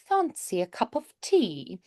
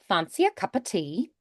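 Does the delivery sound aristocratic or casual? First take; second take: aristocratic; casual. First: It is said in a posh, aristocratic manner. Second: It is said casually, with cup of reduced. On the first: "a little more of that like ari- aristocratic feeling" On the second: "a little more casual, ... a little more cuppa instead of cup of"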